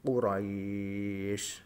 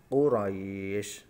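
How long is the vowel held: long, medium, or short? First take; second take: long; medium. First: The vowel before the final sound is held very long. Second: The vowel before the final sound is held moderately. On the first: "tiga alif atau enam harokat" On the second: "dua alif contoh"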